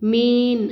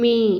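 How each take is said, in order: First: The word ends with a clear n sound. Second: The word ends without an audible n sound. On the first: The speaker calls it wrong. "மேன் அப்படின்னு சொல்லக்கூடாது" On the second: The speaker calls it right. "மேன்னு சொல்லணும்"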